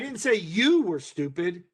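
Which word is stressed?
you. The word 'you' is stressed. "emphasis being on those individual words"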